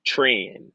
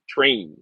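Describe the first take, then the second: First: Tran said with a short a, like tran; trying a pronunciation. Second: Train said with a long a, like train; trying a pronunciation. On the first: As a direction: sound out Tran with the a of can. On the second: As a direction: sound out Train with the a of rain. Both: Shown as a demonstration. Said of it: "I'm gonna try to pronounce it".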